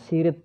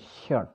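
First: It is said as two syllables, 'si-rit'. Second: It is said as one syllable, 'shirt'. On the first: The speaker calls it wrong. "bukan sirit ya" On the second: The speaker calls it right. "tapi shirt"

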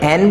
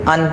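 First: The word has a full, stressed vowel. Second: The word has a short, reduced vowel. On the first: The word is emphasized. "देना पड़ जाए तो हम इसे एन बोलेंगे" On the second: The word is not emphasized. "जब आपको जोर नहीं देना है"

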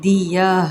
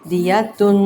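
First: The word ends in a silent h sound. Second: The word ends in -tun with an n. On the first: The reader stops on this word. "خالی ہا" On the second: The reading continues without a stop. "تا دو پیش تن"

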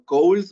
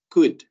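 First: The vowel is long, like in 'gold'. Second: The vowel is short, like in 'good'. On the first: The speaker calls it wrong. "no cold" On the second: The speaker calls it right. "no se pronuncia como se escribe, es could"

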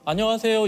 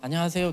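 First: The voice is open and projected far forward. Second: The voice is tight, squeezed in the throat. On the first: The speaker calls it right. "멀리 안녕하세요 이 정도에서 말을 해야 되는데" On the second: The speaker calls it wrong. "계속 이렇게 목을 조이게 됐던 게"

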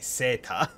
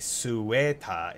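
First: It has no w sound after the s. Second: It has a w sound after the s. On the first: The speaker calls it right. "it's a seta. They just dropped the W sound" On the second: The speaker calls it wrong. "it's not a sueta"

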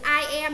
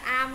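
First: Both words are said fully and separately. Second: The words are squeezed into one quick syllable.

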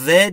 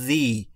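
First: The word ends in a short 'uh' vowel. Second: The word ends in a long 'ee' vowel. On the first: The speaker calls it wrong. "the به صورت the دیگه تلفظ نمیشه" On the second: The speaker calls it right. "میشه the"

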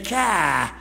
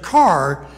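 First: It is said with an Eastern accent, r dropped. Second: It is said plainly, with the r pronounced.

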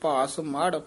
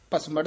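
First: Split in two, light first part, heavy second. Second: Run together as one word without a break. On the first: The speaker calls it right. "ਭਾਸ ਪੋਲਾ ਬੋਲਣਾ, ਮੜ ਭਾਰਾ ਬੋਲਣਾ" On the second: The speaker calls it wrong. "ਭਸਮੜ ਨਹੀਂ ਕਹਿਣਾ"

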